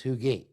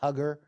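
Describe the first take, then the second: First: The name does not begin like 'hug'. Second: The name begins like the word 'hug'. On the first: This is how the name is actually said. The speaker calls it right. "but actually it's Huger" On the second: This is how the spelling suggests it is said. The speaker calls it wrong. "It looks like Hugger"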